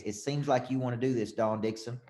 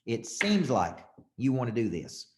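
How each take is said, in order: First: Coaching close. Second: Slow, drawn-out SEEMS, measured suggestion; changed voice tone. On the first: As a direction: float the suggestion without pushing. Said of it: "You gotta say it like this". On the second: Coach repeating the close to Dawn, slow stress on "seems". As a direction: stretch "seems" and let the rest follow slowly. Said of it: "Notice how I'm changing my voice tone". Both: Shown as a demonstration.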